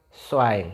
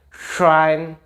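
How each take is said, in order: First: "Schwein" as swain, lower and falling; s onset. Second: "Schwein" with a hushing sh; sh onset. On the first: Teacher repeating the contrast, thin s version. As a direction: say "Schwein" with plain s. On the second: Teacher repeating the contrast, sh version. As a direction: lead "Schwein" with a long sh. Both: Shown as a demonstration. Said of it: "Jadi beda, ada kayak sh".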